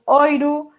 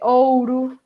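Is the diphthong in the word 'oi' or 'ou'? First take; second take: oi; ou. First: The word is said with the diphthong oi. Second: The word is said with the diphthong ou. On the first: This is the form Galician speakers use. "a presencia de o dictongo oi, nos dicemos oiro" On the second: This is the other form, not the one used. "para touro"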